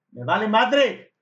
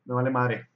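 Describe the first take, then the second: First: MADRE drawn out, higher and louder; drawn-out defiant repeat. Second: Said in the usual way. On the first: Retold or imitated. Driver recounts brushing off a stranger, defiant, drawn out. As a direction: stretch "madre" slow and loud. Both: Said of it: "así lo dije".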